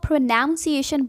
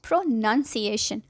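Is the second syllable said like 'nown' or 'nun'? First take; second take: nown; nun. First: The second syllable sounds like 'nown'. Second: The second syllable sounds like 'nun'. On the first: The speaker calls it wrong. "Mostly लोग इसको प्रोनाउंसिएशन बोलते हैं" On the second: The speaker calls it right. "जबकि सही word है प्रोनंसिएशन"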